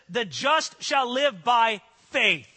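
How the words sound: The stress is on the word faith.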